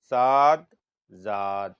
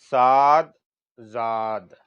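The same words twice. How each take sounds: The two takes are said the same way.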